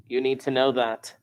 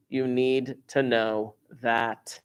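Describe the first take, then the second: First: Said in the usual way. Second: You need to know that, slowly and deliberately; slow emphasis. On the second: Shown as a demonstration. Teacher drills the formula into students, slowly. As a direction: stretch each word out.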